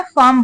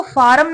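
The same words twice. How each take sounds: First: फार्म as one syllable, "faam", r silent; correct pronunciation of फार्म. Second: फार्म said in two syllables, "FAA-rum"; mispronounced फार्म. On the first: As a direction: say फार्म with a long open "aa" straight into m. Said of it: "फार्म बोलना है". (फार्म का सही उच्चारण, "फाम" जैसा, र मौन) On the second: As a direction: sound the r in फार्म, with a short vowel before the m. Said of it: "इसको फार्म नहीं बोलना है". (फार्म का गलत उच्चारण, "फारम" जैसा) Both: Shown as a demonstration.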